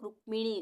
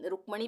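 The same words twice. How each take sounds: First: रुक्मिणी pronounced "ruk-mi-ni"; short i after the m in रुक्मिणी; the रुक्मिणी variant, मि in the middle. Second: रुक्मणी pronounced "ruk-ma-ni"; short a after the m in रुक्मणी; the रुक्मणी variant, म without an i. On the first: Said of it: "कई लोग रुक्मिणी बोलते हैं". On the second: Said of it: "भी कई लोग बोल देते हैं". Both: Shown as a demonstration.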